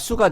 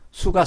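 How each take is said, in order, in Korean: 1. 첫 자음은 경음이고 힘을 주고 냅니다. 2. 첫 자음은 평음이고 힘을 빼고 냅니다.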